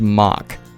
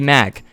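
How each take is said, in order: First: The name is said with a German pronunciation. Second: The name is said with an American pronunciation. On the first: "in German, it's pronounced Mach" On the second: "In America, it would be Mac"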